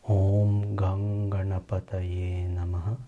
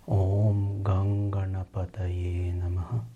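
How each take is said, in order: Both takes have the same delivery.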